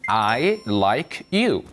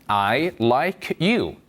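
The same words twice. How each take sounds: First: Very slow, teacher's example; slow model English. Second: Slow repeat. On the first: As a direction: spell it out slowly. (천천히 시범) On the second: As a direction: say it once more slowly. (한 번 더 천천히) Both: Shown as a demonstration. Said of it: "다시요".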